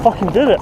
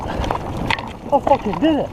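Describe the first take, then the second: First: Loud, rising shout of triumph; triumphant shout. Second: Slow, stretched, rising joy; drawn-out triumph. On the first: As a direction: blurt it out in disbelief. Just cleared the hard section. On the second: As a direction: savor every word of it. Repeats it, savoring the success. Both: Real, not acted.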